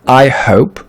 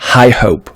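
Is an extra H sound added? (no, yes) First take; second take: no; yes. First: No extra H sound is added. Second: An extra H sound is added. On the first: The speaker calls it right. "c'est bien I hope" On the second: The speaker calls it wrong. "et non pas I hope"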